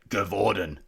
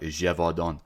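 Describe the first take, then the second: First: The name is said with an Australian accent. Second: The name is said with a French-like pronunciation. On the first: The speaker calls it wrong. "my typical Aussie accent" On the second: The speaker calls it right. "I think it's like Gévaudan"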